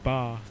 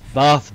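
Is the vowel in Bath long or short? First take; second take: long; short. First: The vowel is long, like 'Barth'. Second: The vowel is short and flat. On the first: This is how someone who picked up a southern accent says it. The speaker calls it wrong. "she says Bath ... really southern accents ... There's no R in it" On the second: This is the speaker's own way of saying it. The speaker calls it right. "I say"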